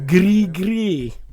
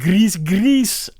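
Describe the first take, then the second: First: The final S sound is silent. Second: The final S sound is pronounced. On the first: The speaker calls it right. "there's no S. ... it's a silent S. ... There you go" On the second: The speaker calls it wrong. "You mispronounced another one"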